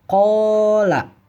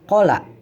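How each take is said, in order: First: The first vowel is held long. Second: The first vowel is short. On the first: The speaker calls it right. "Ko-nya dibaca panjang" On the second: The speaker calls it wrong. "Bukan dibaca kola"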